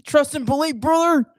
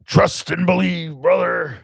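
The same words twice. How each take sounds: First: Loud pro-wrestler shout; Hulk Hogan. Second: Slow, higher wrestler growl-out; Hulk Hogan. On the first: Co-host copying the wrestler line, loud wrestler impression. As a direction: punch it out like a wrestling promo. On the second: Host showing co-host the wrestler line, slow wrestler impression. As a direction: stretch it like a wrestler's promo. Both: Acted. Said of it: "Okay, do Hulk Hogan".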